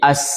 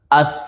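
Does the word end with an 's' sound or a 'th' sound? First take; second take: s; th. First: The final consonant is a hissing 's' sound. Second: The final consonant is a soft 'th' sound. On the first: The speaker calls it wrong. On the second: The speaker calls it right.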